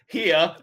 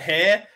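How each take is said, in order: First: The word has an h and an ee vowel. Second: The word starts with an h sound. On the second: "We pronounced it hair"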